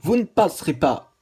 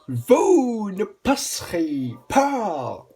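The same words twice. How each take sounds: First: It is said in a plain reading voice. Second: It is said in a dramatic put-on voice.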